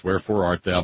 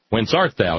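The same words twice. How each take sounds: First: A lightly voiced theatrical Romeo; Romeo's line. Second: A hint of solemn Biblical Pilate; Jesus' line. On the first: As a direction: wherefore art thou, Shakespeare-style, mildly hammed. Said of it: "is Romeo". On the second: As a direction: whence art thou, read as scripture. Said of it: "is Jesus". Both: Shown as a demonstration.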